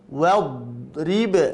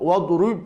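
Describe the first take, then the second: First: The r is followed by an i vowel. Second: The r is followed by a u vowel. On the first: The speaker calls it right. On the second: The speaker calls it wrong. "rub, tidak"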